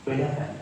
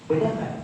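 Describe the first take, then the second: No difference in how they are said.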